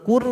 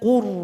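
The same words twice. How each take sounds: First: The r is pronounced light and thin. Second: The r is pronounced heavy and thick. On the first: The speaker calls it wrong. "Jangan allamal qur" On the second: The speaker calls it right. "tapi bibir bawah juga naik ke atas"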